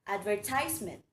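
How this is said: It is said the American way. "In American English, it is pronounced as advertisement"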